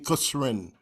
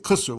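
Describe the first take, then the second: First: The word ends with a final -in sound. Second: The word stops at khusr, no ending.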